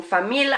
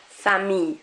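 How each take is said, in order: First: Famille with a clear L at the end; wrong hard L. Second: Famille said as fa-mee-y, no l; French ille sound. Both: Shown as a demonstration. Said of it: "I'm not saying famille".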